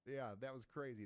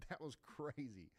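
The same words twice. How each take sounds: First: Said in the usual way. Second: Laughing it off after a jump scare. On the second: Real, not acted. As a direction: chuckle through the words.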